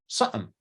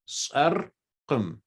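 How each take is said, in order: First: The middle q sound is dropped. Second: The middle q sound is clearly pronounced. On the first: "the way Albert would say it, or my wife would say it" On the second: "the way that I would say it is how it's spelled"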